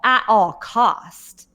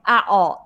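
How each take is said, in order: First: "at all cost" said very slowly, each word pressed; stress on at all cost. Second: Said in the usual way. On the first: Shown as a demonstration. Stressed restatement of the phrase.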